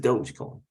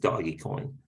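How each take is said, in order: First: The first part sounds like 'dohj'. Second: The first part sounds like 'doggy'. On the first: The speaker calls it right. "but it is Dogecoin, respectfully" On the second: The speaker calls it wrong. "Some people think it's Doggy Coin"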